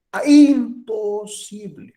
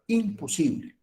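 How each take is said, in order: First: Imposible said slow, higher and louder; stress on imposible. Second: Said in the usual way. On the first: Shown as a demonstration. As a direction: lean hard on "imposible", drawing it out. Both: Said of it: "acentuar la palabra imposible".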